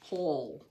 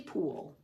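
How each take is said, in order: First: The vowel is short, like in 'pull'. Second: The vowel is long, like in 'pool'. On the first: The speaker calls it right. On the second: The speaker calls it wrong.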